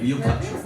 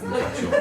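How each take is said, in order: First: Said in the usual way. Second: Squeaky high repeat. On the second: Shown as a demonstration. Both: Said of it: "repeats to latecomer".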